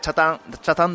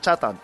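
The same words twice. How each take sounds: First: The pitch is not raised on the first syllable. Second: The pitch is raised on the first syllable. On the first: This is how locals say it. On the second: This is how people from the mainland say it.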